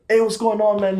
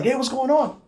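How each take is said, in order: First: Said in the usual way. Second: Much higher, upbeat hey; chipper greeting. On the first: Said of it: "and I was like". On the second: Retold or imitated. Imitating the chipper officer greeting a sick friend, upbeat. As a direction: greet him cheerfully, full of pep. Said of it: "chipper like he always is".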